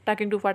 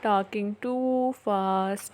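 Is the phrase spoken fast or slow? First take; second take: fast; slow. First: The phrase is spoken quickly and rushed. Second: The phrase is spoken very slowly and drawn out. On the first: "अब ये इस तरीके से मैंने बोला है कि आपको समझने में थोड़ा प्रॉब्लम हो सकती" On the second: "मैं काफ़ी स्लो बोल रही हूँ"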